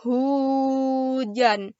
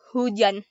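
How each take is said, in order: First: Hujan drawn out slowly, each sound held; slow pronunciation. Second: Said in the usual way. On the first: Shown as a demonstration. Teaching viewers to say Hujan, drawn out slowly. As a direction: say Hujan very slowly, stretching the word. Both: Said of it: "Say it very slowly with me".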